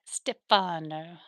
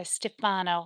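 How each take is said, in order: First: "Stefano" slowly, syllable by syllable; practising a name. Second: Said in the usual way. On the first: Shown as a demonstration. Streamer practises viewer's name, "Stefano" slow and careful. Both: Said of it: "I'll have to practice that".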